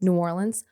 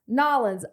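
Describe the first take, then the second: First: The name is said the way locals say it. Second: The name is squashed into one short word. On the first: This is how people from the city say it. The speaker calls it right. "How do you say it if you're from New Orleans?" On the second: This is how outsiders say it. The speaker calls it wrong. "No one in New Orleans says Nolans"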